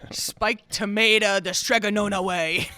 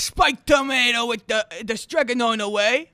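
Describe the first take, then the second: First: It is said in a plain accent. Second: It is said in an Italian accent.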